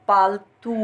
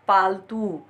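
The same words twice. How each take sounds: No difference in how they are said.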